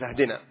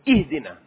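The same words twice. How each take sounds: First: The word begins with an 'a' vowel. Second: The word begins with an 'i' vowel. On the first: It means 'give us a gift'. The speaker calls it wrong. "وليس بالفتح" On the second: It means 'guide us'. The speaker calls it right. "اهدنا بالكسر"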